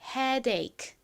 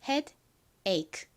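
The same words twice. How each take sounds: First: Head runs smoothly into ache without break. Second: A break separates head from ache. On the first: The speaker calls it right. "빠르게 연결해서 발음해 주셔야 됩니다. headache, headache 이렇게요" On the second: The speaker calls it wrong. "이렇게 뚝 끊어지게 발음하시면 안 되고"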